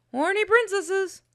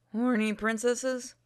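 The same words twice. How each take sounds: First: High-pitched disbelief, rising at the end; incredulous echo. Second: Soft, slow pondering; musing. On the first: Companion echoing the princess idea, high incredulous voice. Other character echoes in disbelief. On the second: Player's character mulling over princesses, soft slow musing. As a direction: say it slowly and softly to yourself. Musing line, then echoed aloud. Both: Acted.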